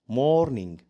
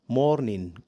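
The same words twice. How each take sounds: The two takes are said the same way.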